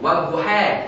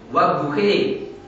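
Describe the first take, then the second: First: The final vowel is bent slightly toward 'e'. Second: The final vowel is bent strongly toward 'e'. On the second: "Ada yang membaca imalah"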